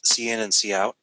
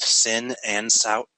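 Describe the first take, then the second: First: Each name starts with the letter C said separately. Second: Each name is said as one short word.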